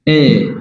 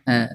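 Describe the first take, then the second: First: The vowel sounds like an 'e'. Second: The vowel sounds like an open 'a'. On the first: The speaker calls it wrong. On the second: The speaker calls it right.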